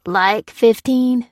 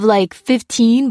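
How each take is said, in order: First: Slow, disbelieving "fifteen" stretched out; incredulous echo. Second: Said in the usual way. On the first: A narrator's reading. Dufflecoat echoing Alphonse's number in slow disbelief. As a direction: repeat "Like fifteen?" in disbelief, drawing out fifteen. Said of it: "said Dufflecoat". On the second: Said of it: "said Alphonse".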